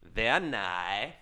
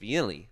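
First: It is said with the Kazakh pronunciation. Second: It is said with a New Zealand accent.

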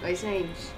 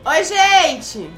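First: It is said quietly. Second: It is said loudly.

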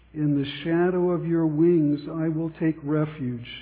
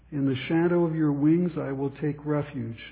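Both takes have the same delivery.

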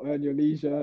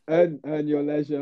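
First: It is said in an American accent. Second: It is said in the speaker's own accent.

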